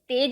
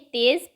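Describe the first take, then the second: First: The final consonant is a plain 'j' sound. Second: The final consonant is a buzzing 'z' sound. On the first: The speaker calls it wrong. "तेज नहीं है ये" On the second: The speaker calls it right. "ये नुक्ते वाले शब्द है जहां पर ज की नहीं ज की साउंड आती है"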